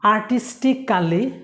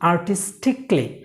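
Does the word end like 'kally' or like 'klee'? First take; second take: kally; klee. First: The ending sounds like 'kally'. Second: The ending sounds like 'klee'. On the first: The speaker calls it wrong. "এটা ভুল" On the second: The speaker calls it right. "এটা উচ্চারণ হবে"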